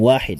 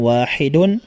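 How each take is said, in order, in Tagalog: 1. Nagtatapos ang salita sa simpleng tunog na 'd'. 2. Nagtatapos ang salita sa buong pantig na '-dun'. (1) "pwede rin nating sabing wahid" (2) "lagyan ng dhammatan"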